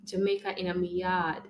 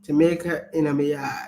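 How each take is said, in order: First: Softer Jamaican patois demo; Jamaican accent. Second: Careful attempt at Jamaican patois; copied Jamaican accent. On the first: Partner teaches the phrase, soft Jamaican accent. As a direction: model it softly in a Jamaican accent. Models phrase for other to copy. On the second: Speaker repeats after partner coaching, attempted Jamaican accent. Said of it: "Yes, you're welcome, babes". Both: Shown as a demonstration.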